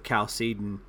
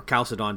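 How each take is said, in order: First: Chalcedon said as kal-SEE-dun; first pronunciation of Chalcedon. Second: Chalcedon said as KAL-suh-don; alternative pronunciation of Chalcedon. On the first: Panelist citing ancient creeds, Chalcedon pronounced kal-SEE-dun. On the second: Panelist offering another option, Chalcedon pronounced KAL-suh-don. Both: Shown as a demonstration. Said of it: "depending on how you wanna pronounce that".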